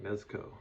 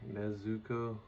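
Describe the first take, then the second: First: The middle u vowel is dropped or barely heard. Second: The middle u vowel is clearly pronounced. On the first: "other times it sounds like" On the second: "it sounds like they say the U"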